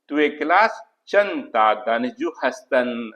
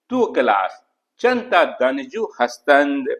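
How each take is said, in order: First: The last word ends without the d sound. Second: The last word ends with a clear d sound.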